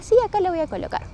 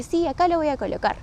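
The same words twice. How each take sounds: First: Quick, high-pitched insistent reply; retold insistence. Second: Higher-pitched reply, at an unhurried pace; retold assurance. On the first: Daughter answers her mother's repeated doubt, quickly insisting. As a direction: brush off the doubt, pitched up and fast. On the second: Daughter assures her doubting mother about the posters, mildly insistent. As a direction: answer the doubt with a lifted, sure yes.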